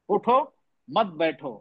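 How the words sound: There is a pause after the word utho. The listener is told to stand up. "थोड़ा पीछे कर दिया, उठो पे"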